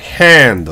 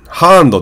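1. 母音は 'a' と 'e' の間です。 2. 母音は普通の開いた 'a' です。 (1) "ハンドみたいな感じで" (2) "ハンドってあんま言わないですよね"

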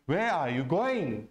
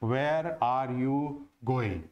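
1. Where और going पर ज़ोर है; are you हल्का है। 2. सपाट लहज़े में सभी शब्दों का वज़न बराबर होता है। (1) "वेयर पर साउंड ऊपर जाएगी, आर और यू पर नीचे आएगी, गोइंग पर वापस ऊपर जाएगी" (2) "हम एक ही लाइन में इसको बोलने का प्रयास करते हैं"

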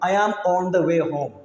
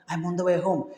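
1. സാധാരണ, ഉറച്ച ശബ്ദത്തിലാണ് പറയുന്നത്. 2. മെല്ലെയും മടിച്ചും, ഏതാണ്ട് പതുങ്ങിയ ശബ്ദത്തിലാണ് പറയുന്നത്. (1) "ഒരു മടിയും കൂടെ പറയണത്" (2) "പതുക്കെ പറയും ... എന്തോ ഒരു സാധനം കട്ടെടുക്കുന്ന പോലെയാണ്"

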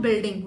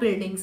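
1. अंतिम s ध्वनि छूट जाती है। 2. अंतिम s ध्वनि साफ़ बोली जाती है। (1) "वहां पे आपका स्कोर जाएगा डाउन" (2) "बिल्कुल क्लियर बोलना है"

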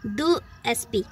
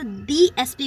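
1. 'The' को छोटे 'thuh' स्वर के साथ बोला जाता है। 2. 'The' को लंबे 'thee' स्वर के साथ बोला जाता है। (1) "यहाँ पर द नहीं बोला जाएगा" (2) "यहाँ पर दी एस पी बोला जाएगा"

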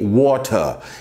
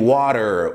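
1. O T do meio é um som de t nítido e claro. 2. O T do meio é um toque suave, parecido com o R. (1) "Eles pronunciam o T" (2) "o T tem som de R"

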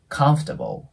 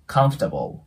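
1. 真ん中の'for'は、短い f に弱まります。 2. 真ん中の'for'は、短い f に弱まります。

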